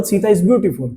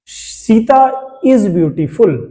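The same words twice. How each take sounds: First: Said in the usual way. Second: Slow, deliberate dictation of the example; teacher reading the example very slowly; slow example sentence. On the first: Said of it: "ये elegant नहीं लग रहा". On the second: Shown as a demonstration. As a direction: spell it out word by word for the class. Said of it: "अब क्या ये अच्छा लग रहा है?".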